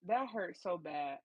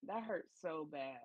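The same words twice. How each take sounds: First: Slow, stretched-out wince; drawn-out sympathy. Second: Slow, softer pained echo; softer repeat. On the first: Co-host feeling for the rejected man, slow pained drawl. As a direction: drag it out like it stings. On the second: Co-host repeating her sympathy for the man, slow and softer. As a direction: say it again under your breath. Reacting to the rejection story. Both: Real, not acted.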